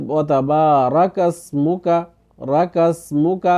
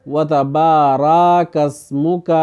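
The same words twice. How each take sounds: First: وتبارک slow, with a short fatha on the ra; correct form. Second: وتبارک slow, with the ra drawn out into a long alif; common mistake. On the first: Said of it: "اس طرح پڑھنا ہے۔". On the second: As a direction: stretch the ra of وتبارک the wrong way. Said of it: "کچھ لوگ پڑھتے ہیں". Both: Shown as a demonstration.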